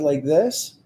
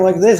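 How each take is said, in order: First: The speech is somewhat slower. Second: The speech is quick and rushed. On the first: "I'm just going to slow it down to like this" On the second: "if I'm talking like this"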